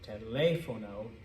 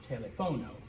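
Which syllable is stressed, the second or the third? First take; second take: second; third. First: The stress is on the second syllable. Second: The stress is on the third syllable. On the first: The speaker calls it right. "this is telefono" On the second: The speaker calls it wrong. "not telefono"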